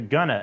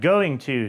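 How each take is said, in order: First: The two words are run together into one. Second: Both words are said in full. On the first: "shortened to gonna" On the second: "just like going to"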